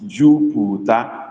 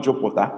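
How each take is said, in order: First: Slow Jupiter with close u, rising; correct vowels. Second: Jupiter with an open o; wrong version. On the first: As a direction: draw out Jupiter with clean u. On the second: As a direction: Jupiter said like jopota. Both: Shown as a demonstration. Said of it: "It's not Jupiter, it's Jupiter".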